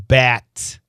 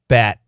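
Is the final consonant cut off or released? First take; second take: released; cut off. First: The final consonant is fully released. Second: The final consonant is cut off, unreleased. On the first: "Perfect pronunciation" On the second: "We say bat"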